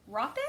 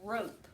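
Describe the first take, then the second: First: "rope" said with short O like "rop"; short vowel reading. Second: "rope" with long O; long vowel reading. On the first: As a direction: try the wrong short O in "rope". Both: Shown as a demonstration. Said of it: "Which one is the word".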